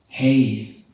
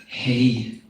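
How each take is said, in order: First: The vowel sounds like 'hay'. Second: The vowel sounds like 'hay'.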